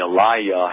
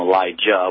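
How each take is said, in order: First: The name is said without a J sound. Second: The name is said with a J sound. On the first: This is the true form of the name. The speaker calls it right. "but really" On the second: This is the common form people use. The speaker calls it wrong. "they called him Elijah with the J"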